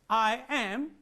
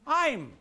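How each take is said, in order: First: It is said as two separate full words. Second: It is contracted into a single syllable. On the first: The speaker calls it wrong. "you have not to pronounce it as I am" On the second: The speaker calls it right. "but I'm"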